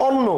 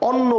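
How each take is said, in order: No difference in how they are said.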